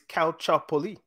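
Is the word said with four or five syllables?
four. The word is said with four syllables. This is how it is said in Italian. "In Italian, it's Calciopoli"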